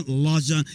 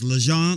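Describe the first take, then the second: First: Lejon with an open "ah" first, "lah-ZHON"; alternative name pronunciation. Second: Lejon with a short, light first vowel, "luh-ZHON"; name pronunciation. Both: Shown as a demonstration. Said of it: "it can be pronounced".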